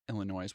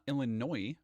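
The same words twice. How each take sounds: First: The final S sound is pronounced. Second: The final S sound is silent. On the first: The speaker calls it wrong. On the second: The speaker calls it right.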